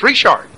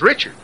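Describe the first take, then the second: First: It is said with a French pronunciation. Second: It is said with an English pronunciation. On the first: This is how the family really says the name. The speaker calls it right. "their name isn't Richard; it's Richard" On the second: This is how the spelling looks to an outsider. The speaker calls it wrong. "you'd think their name was Richard"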